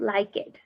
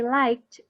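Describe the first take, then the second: First: The ending is an extra syllable after like. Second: The ending is a short t sound, one syllable. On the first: The speaker calls it wrong. "not like it" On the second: The speaker calls it right. "we say liked"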